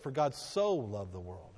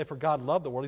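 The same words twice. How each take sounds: First: "so" drawn out and leaned on, lower and slow; stress on SO. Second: Said in the usual way. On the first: Shown as a demonstration. Preacher correcting the verse, stress on "so". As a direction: linger on "so" to show the love's measure. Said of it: "he said". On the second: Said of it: "he didn't say".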